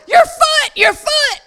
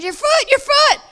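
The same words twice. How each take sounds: First: High, loud alarmed scream. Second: High, insistent "Your foot, your foot."; urgent high voice. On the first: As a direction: shriek it out in shock. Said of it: "she screams". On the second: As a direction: press it, high and pointing. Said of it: "She goes". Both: Retold or imitated.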